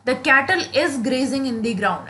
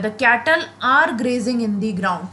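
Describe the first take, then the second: First: Said in the usual way. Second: Slow, with are leaning a little heavier; stress on are. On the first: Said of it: "ऐसे नहीं बोलते हैं". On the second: Shown as a demonstration. Teacher to students, slow correct sentence with are stressed. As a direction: lean on are to show the right verb. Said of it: "तो cattle है".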